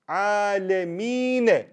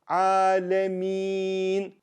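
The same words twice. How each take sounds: First: The word ends with a short final vowel. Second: The word ends on a consonant, vowel dropped. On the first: "Normally it reads Alameen. You see fatha here" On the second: "I turn the fatha to jazm"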